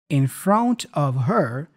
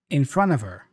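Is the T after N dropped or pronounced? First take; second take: pronounced; dropped. First: The T after N is pronounced. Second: The T after N is dropped.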